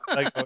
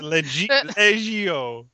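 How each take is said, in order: First: The word is said with two syllables. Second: The word is said with three syllables. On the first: The speaker calls it wrong. "I screwed up the pronunciation of one word there" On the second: The speaker calls it right. "It's legio"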